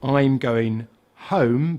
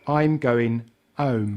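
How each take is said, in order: First: The H at the start of home is pronounced. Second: The H at the start of home is dropped. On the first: "For example"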